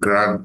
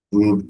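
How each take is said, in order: First: The vowel sounds like 'a' in 'father'. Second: The vowel sounds like 'oo' in 'food'. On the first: "এটাকে বলে ক্রাড operation" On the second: "অনেকে ক্রুডও বলে"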